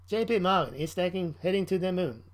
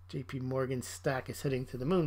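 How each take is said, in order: First: It is said in an Australian robot voice. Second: It is said in a normal reading voice.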